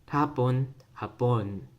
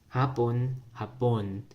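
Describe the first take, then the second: No difference in how they are said.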